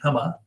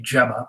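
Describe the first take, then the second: First: The name is said the Latino way. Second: The name is said the UK way. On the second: The person would be from the UK. "if you're from the U K, it would be Gemma"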